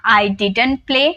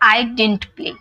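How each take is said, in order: First: Didn't is said with two syllables, the 'd' kept. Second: Didn't is said as one syllable, 'dint'. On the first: "डिडंट" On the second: "डिंट"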